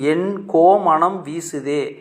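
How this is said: The first word is split into two parts. My king's fragrance is spreading.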